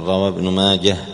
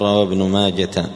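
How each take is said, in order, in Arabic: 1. ينتهي الاسم بصوت الهاء. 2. ينتهي الاسم بصوت التاء. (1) "وينطق بالهاء وليس بالتاء، قل" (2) "ما تقول"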